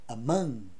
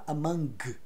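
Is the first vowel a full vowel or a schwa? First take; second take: schwa; full vowel. First: The first vowel is a weak schwa. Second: The first vowel is a full, open vowel. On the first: The speaker calls it right. "é among" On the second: The speaker calls it wrong. "Repara que não fala among"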